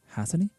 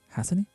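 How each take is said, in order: First: The t is dropped, sounding like has a knee. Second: The t is dropped, sounding like has a knee.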